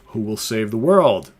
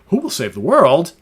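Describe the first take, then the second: First: It is said flat, not as a question. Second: It is said with a questioning rise. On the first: The speaker calls it wrong. "Well, no, sorry" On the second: The speaker calls it right. "Got to say it with a question"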